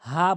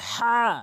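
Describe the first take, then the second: First: The h is a light, ordinary breathy h. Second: The h is deep, from the middle of throat. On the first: The speaker calls it wrong. "অধিকাংশ লোক হা বলে" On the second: The speaker calls it right. "বলতে হবে হা"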